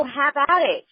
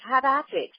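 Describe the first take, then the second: First: Said in the usual way. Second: Playful mock British voice; lightly imitated British accent. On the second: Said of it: "say in the British voice".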